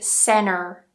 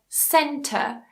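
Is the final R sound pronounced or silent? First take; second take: pronounced; silent. First: The final R sound is pronounced. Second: The final R sound is dropped. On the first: "in the U S, they would say center" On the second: "we pronounce them with a schwa"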